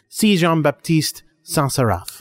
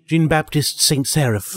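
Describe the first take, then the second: First: Slow, hammed-up French accent on the name; lightly French-accented name reading. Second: Jean-Baptiste Saint-Seraph said slowly in plain English sounds, Saint as "saint"; plain American reading of Jean-Baptiste Saint-Seraph; plain English name. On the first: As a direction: savour the name in mock French. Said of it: "that ridiculous French accent". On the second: Shown as a demonstration. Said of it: "You can just say his name".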